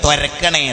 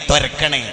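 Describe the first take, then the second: No difference in how they are said.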